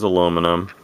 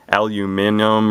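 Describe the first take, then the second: First: It is said the American way, four syllables. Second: It is said the British way, five syllables.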